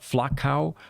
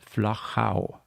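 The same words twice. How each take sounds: First: The name is said with an anglicized pronunciation. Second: The name is said with a German pronunciation. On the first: The speaker calls it wrong. "it is not Flachau" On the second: The speaker calls it right. "the German and the Austrian pronunciation. It's Flachau"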